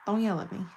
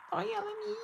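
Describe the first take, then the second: First: Said in the usual way. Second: High-pitched whiny "Don't yell at me"; high whiny plea. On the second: Retold or imitated. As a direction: squeak it out, much higher. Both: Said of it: "He'll be like".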